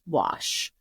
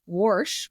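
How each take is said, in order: First: The word is said without an R sound. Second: The word is said with an R sound.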